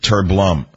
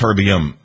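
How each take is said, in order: First: The word is said with an L, as terblum. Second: The word is said without an L, as terbium. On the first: The speaker calls it wrong. "It's not terblum" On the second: The speaker calls it right. "it's terbium"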